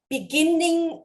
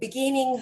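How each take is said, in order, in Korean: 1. -ing 앞의 n은 두 번 발음해요. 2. -ing 앞의 n은 한 번 발음해요. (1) "beginning 아니고" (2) "beginning 하는 것처럼 같은 자음이 반복되면 한 번만 발음한다"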